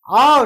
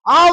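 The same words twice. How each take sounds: First: It is said at a calm, slow pace. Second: It is said quickly and urgently.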